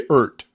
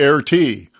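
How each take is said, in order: First: The name starts with an 'ee' sound. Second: The name starts with an 'ay' sound. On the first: "Some say E R T" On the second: "some say A R T"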